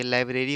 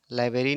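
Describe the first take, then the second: First: लाइब्रेरी said clearly as "lai-bre-ri" with the r after b; correct pronunciation. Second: लाइब्रेरी said as "lai-be-ri", dropping the r after b; wrong spelling read out. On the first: Teacher gives students the correct word: "library". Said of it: "लाइब्रेरी होना चाहिए". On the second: Teacher shows students the misspelt word: "laiberi". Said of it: "लाइब्रेरी नहीं होना चाहिए". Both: Shown as a demonstration.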